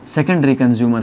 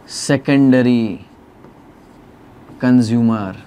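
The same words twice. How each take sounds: First: Said in the usual way. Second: Drawn-out words with a long pause between; very slow, word-by-word term read-out; slow dictation. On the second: Shown as a demonstration. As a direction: spell it out slowly as you write. Teacher dictating while writing.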